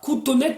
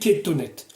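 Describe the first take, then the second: First: The first vowel sounds like 'oo'. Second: The first vowel sounds like 'e'. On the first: This is the form of the word standing alone. The speaker calls it wrong. "on ne dit pas koutonet" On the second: This is the form joined to another word. The speaker calls it right. "mais ketonet"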